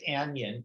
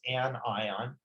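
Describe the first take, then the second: First: The first syllable does not sound like 'ant'. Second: The first syllable sounds like 'ant'. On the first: The speaker calls it wrong. "It's not pronounced anion" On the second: The speaker calls it right. "like anti"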